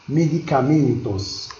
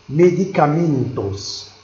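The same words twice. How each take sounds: No difference in how they are said.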